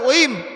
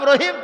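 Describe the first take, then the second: First: The name begins without any r sound. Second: The name begins with a clear r sound. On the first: The speaker calls it wrong. "তাক কয় ওইম" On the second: The speaker calls it right. "যার নাম রহিম"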